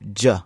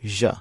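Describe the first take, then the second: First: The consonant is a hard 'dj' sound. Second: The consonant is a soft 'zh' sound. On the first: The speaker calls it wrong. "It does not sound like J" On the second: The speaker calls it right. "It sounds like J"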